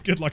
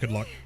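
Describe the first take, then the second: First: It is said in a sincere tone. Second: It is said in a sarcastic tone. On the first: The wish is genuinely meant. "actually, actually" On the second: The wish is not really meant. "that sounded really sarcastic"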